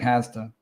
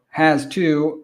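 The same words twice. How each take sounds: First: The two words are blended into one reduced form. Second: The two words are said separately and fully.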